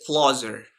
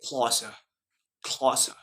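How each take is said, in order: First: American "closer" with the final R sounded; American accent, finish "closer" on an R. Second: British "closer" with a silent R; British accent. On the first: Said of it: "American and British accent". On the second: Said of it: "but in British". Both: Shown as a demonstration.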